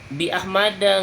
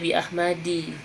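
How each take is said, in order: First: The name ends with an 'a' vowel. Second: The name ends with an 'i' vowel. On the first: The speaker calls it right. "bi Ahmada nggak boleh dibaca bi Ahmadi" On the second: The speaker calls it wrong. "nggak boleh dibaca bi Ahmadi"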